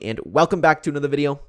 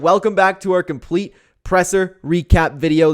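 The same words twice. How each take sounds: First: Said in the usual way. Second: Louder, slower showman welcome; hyped intro. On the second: Real, not acted. Vlogger hyping his new recap series, loud and slow. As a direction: sell the new series to the viewers.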